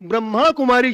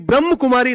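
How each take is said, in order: First: The first word ends with a long 'a' vowel. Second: The first word ends without a final vowel. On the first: The speaker calls it right. "ब्रह्मा Kumari शब्द है" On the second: The speaker calls it wrong. "ब्रह्म Kumari नहीं"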